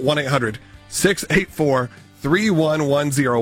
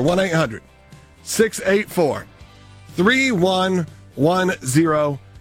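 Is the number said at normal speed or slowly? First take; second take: normal; slowly. First: It is said at normal speed. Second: It is said slowly and deliberately.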